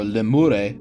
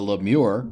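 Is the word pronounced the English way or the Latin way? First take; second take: Latin; English. First: It is pronounced the classical Latin way. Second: It is pronounced the everyday English way.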